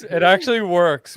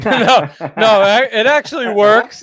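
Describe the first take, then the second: First: Said in the usual way. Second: Laughing through the words, higher and louder; laughing protest. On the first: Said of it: "repeats it calmly". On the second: Real, not acted. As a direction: protest while still laughing.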